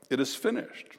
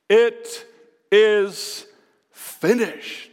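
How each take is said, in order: First: Softly repeating It is finished, much softer; quiet echo. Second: A somewhat louder, drawn-out triumphant declaration; triumphant cry. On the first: Acted. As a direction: let it settle, hushed and reflective. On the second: Retold or imitated. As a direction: proclaim it as a victory cry, not full force. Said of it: "he cried out in a loud voice".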